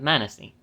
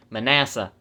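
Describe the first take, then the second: First: "Manasseh" said MAN-uh-see. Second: "Manasseh" said muh-NASS-uh; corrected pronunciation of Manasseh. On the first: Real, not acted. Reading the half tribe's name, "Manasseh" as MAN-uh-see. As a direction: stress the first syllable of "Manasseh", ending in "see". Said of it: "I've been pronouncing this completely wrong". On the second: Shown as a demonstration. Correcting himself after learning it recently, "Manasseh" as muh-NASS-uh. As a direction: stress the middle of "Manasseh", ending in "uh". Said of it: "I learned the pronunciation of this recently".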